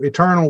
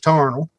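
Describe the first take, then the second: First: The word is said with its full modern pronunciation. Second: The first syllable is dropped and the vowel is 'ar'.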